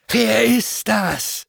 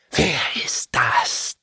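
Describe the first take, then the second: First: Much higher, slow demonic query; demon hissing. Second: Slow, voiceless hiss; hissing whisper. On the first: Fallen angels demanding who he is, high and slow. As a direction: raise it high, slow and sneering. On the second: Fallen angels hissing at the intruder, whispered. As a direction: breathe it out like a suspicious demon. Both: A narrator's reading.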